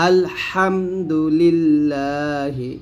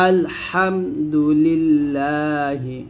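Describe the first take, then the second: The two takes are said the same way.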